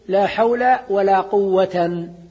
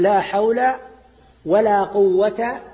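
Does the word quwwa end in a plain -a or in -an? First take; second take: -an; -a. First: The last word ends with nunation, quwwatan. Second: The last word ends with a plain a, quwwata. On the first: The second noun is joined to the first as its object. "معطوف على محل اسم لا الأولى ... فيكون منصوبا" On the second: The second la governs its own noun. "ولا قوة مبني على الفتح"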